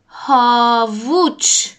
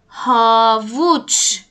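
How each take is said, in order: Both takes have the same delivery.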